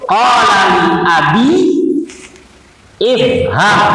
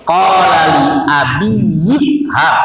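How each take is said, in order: First: Each word is said on its own, unlinked. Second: The words run together, joined to one another. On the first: "itu kalau sendiri-sendiri" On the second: "Kalau disambung"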